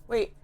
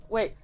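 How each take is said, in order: The two takes are said the same way.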